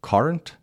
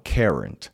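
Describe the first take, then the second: First: "Current" with an open "car" first vowel; British pronunciation. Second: "current" with first syllable like "care" or "cur"; American pronunciation. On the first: Teacher offering the first of two variants, British "Current". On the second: Teacher offering the second correct variant, American "current". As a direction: slowly say "current" the American way, not "car-rent". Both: Shown as a demonstration. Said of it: "هر دو تلفظ درسته".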